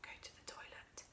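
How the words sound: It is said almost in a whisper.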